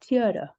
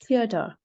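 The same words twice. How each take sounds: First: It is said in an American accent. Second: It is said in a British accent. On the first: "In American English, it's theater" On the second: "In British English, it's theater"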